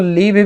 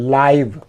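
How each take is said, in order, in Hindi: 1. स्वर एक छोटी 'i' ध्वनि है। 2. स्वर 'eye' जैसी ध्वनि है। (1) "इसको लिव भी पढ़ सकते हैं" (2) "इसको आई ही यहाँ बोलेंगे"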